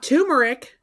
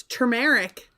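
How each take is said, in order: First: Turmeric said TOO-mer-ick; the rejected turmeric, "toomeric" with no first R; turmeric with a "too" start; R dropped. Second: Turmeric said ter-MARE-ick; turmeric with the first R sounded; R pronounced. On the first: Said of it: "Not turmeric". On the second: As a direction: correct it to turmeric with an audible "tur". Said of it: "There's an R". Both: Shown as a demonstration.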